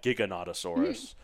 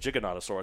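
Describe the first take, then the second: First: The first G differs from gigantic's G. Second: The first G sounds like gigantic's G. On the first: This is how the movie said it. "there was a Giganotosaurus, and it said Giganotosaurus. Mm. But I always said" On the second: This is how the speaker always says it. "I always said Giganotosaurus because it's gigantic"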